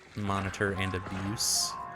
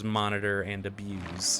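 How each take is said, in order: First: Both words are pronounced as nouns. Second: Both words are pronounced as verbs. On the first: The speaker calls it wrong. "as in both are nouns" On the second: The speaker calls it right. "as in both of those are verbs"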